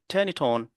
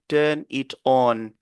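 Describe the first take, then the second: First: The final consonants link into the following vowels. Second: The three words are said separately, not linked. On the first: The speaker calls it right. "On va dire turn it on" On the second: The speaker calls it wrong. "On ne va pas dire turn it on"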